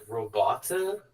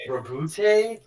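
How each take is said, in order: First: Robota said slowly, stress on ro-BO-ta; canon pronunciation. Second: Robute said loud and high, roh-BOOT-ay; canon name. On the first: Host giving the canon pronunciation of robota. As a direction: say robota in three even syllables. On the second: Host scoffing at the canon name Robute. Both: Shown as a demonstration. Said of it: "the canon pronunciation is".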